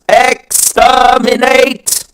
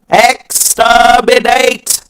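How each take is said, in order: The two takes are said the same way.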